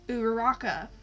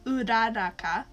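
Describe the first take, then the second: First: The name is said with English-style sounds. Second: The name is said with Japanese-style sounds. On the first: This is how most of the fandom says it. The speaker calls it wrong. "most of the fandom knows them as" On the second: This is the correct pronunciation. The speaker calls it right. "when really it's"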